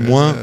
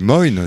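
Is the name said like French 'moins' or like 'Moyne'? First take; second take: moins; Moyne. First: It sounds like the French word 'moins'. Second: It ends with a clear 'n' consonant. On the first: The speaker calls it wrong. "tu l'as prononcé moins" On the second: The speaker calls it right. "nous on dit Moyne, c'est vraiment comme ça que ça se prononce"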